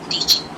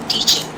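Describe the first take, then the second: No difference in how they are said.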